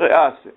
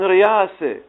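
First: The middle sound is a glottal stop. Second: The middle sound is a y sound. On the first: "مع أنه يمكنك أن تقول رئاسة" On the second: "العرب في لغتهم ينطقون أكثر بالياء، يقولون رياسة"

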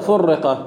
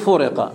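First: The r sound is doubled, held longer. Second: The r sound is single and short. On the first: "لو فرق بالتشديد جيد" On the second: "أنا في المتن عندي فرق"

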